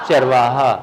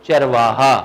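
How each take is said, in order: Both takes have the same delivery.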